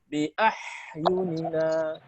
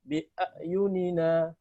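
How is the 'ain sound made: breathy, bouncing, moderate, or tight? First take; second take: breathy; tight. First: The 'ain sound is breathy with escaping air. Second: The 'ain sound is tight and fully blocked. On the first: "Atau dibaca hamas" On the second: "Dibaca syiddah"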